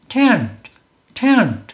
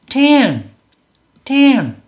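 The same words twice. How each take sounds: The two takes are said the same way.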